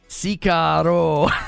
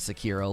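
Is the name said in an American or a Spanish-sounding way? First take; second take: Spanish-sounding; American. First: The name is said with a Spanish-sounding accent. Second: The name is said with a plain American accent. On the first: The speaker calls it wrong. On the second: The speaker calls it right. "Just call it Sekiro"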